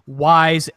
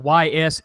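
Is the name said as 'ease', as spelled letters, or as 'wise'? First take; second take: wise; spelled letters. First: It is said as one word rhyming with 'wise'. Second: It is said as two separate spelled letters. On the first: "if you were going to pronounce it the way it's spelled" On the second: "Y S eight"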